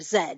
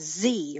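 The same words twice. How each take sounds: First: The letter is said the British way, as zed. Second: The letter is said the American way, as zee.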